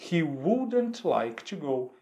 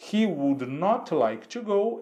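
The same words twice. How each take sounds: First: Slow "he wouldn't like to go" with "wouldn't" as one word; contracted negative. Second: Slow "he would not like to go", "would not" fully said; full negative. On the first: Teacher modelling the contraction for students, slow and clear. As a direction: run "wouldn't" together, slowly. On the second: Teacher showing students the full negative, slow and deliberate. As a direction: give "would not" as two clear words, slowly. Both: Shown as a demonstration. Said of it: "ou, fazendo a contração".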